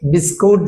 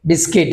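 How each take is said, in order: First: The word ends with a 'kut' sound. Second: The word ends with a 'kit' sound. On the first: This is the everyday local way of saying it. "বিস্কুট যেটা বলছি আমরা" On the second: This is the English way of saying it. "বিস্কিট বিস্কিট"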